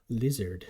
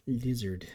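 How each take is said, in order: Both takes have the same delivery.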